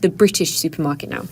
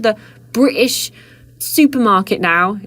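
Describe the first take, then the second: First: The T sound in British is pronounced. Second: The T sound in British is dropped. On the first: "instead of" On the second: "I started doing that"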